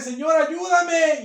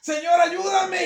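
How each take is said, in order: First: High, loud, slow plea; pleading cry. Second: Shouted, high and slow; shouted plea. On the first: A believer crying to the Lord, slow loud pleading. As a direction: beg the Lord loudly, drawing it out. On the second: The believer calling out again to the Lord, shouting. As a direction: shout the plea even harder. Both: Acted. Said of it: "Como que usted esté".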